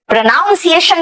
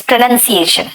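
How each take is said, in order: First: प्रोनाउंसिएशन with "noun" in the middle; wrong "noun" pronunciation. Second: प्रोनंसिएशन with "nun" in the middle; right "nun" pronunciation. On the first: Teacher showing the mistake to avoid, "noun" in प्रोनाउंसिएशन. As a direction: say ow inside प्रोनाउंसिएशन. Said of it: "प्रोनाउंसिएशन नहीं बोलना". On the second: Teacher correcting the students' word, "nun" in प्रोनंसिएशन. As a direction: say a short uh inside प्रोनंसिएशन. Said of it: "it's प्रोनंसिएशन". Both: Shown as a demonstration.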